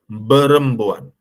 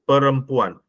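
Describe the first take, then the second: First: The word begins with a b sound. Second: The word begins with a p sound. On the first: This is how an Arabic speaker without p would say it. The speaker calls it wrong. "dia tak ada p eh. Dia jadi berempuan" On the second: This is the normal Malay pronunciation. The speaker calls it right.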